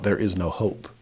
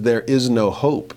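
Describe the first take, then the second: First: Said in the usual way. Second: "There is no hope" drawn out slowly with "is" leaned on; slow, deliberate "There is no hope" with weight on "is"; slowed quote, stress on is. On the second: Shown as a demonstration. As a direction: linger on the word "is" in "There is no hope". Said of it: "So there, when it says".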